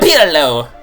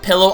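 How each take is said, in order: First: It is said with an exaggerated Italian accent. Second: It is said with a plain English accent. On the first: "It sounds really very Italian. Mamma mia" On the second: "I'm gonna call it Pillow Island for the most part"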